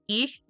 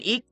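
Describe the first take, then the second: First: The word ends in a soft ch sound. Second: The word ends in a hard k sound. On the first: This is the less harsh dialect form. "the northern dialect that is like less harsh" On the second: This is the harsher dialect form. "rather than ik"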